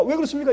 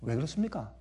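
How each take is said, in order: First: Much higher, louder, punch 그렇습니까; emphatic preaching question. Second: Said in the usual way. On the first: Shown as a demonstration. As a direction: hammer the question home. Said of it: "repeated question building". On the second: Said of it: "왜 그렇습니까? (repeated, building)".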